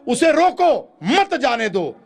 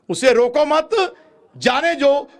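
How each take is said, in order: First: There is a pause after रोको. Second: There is a pause after मत.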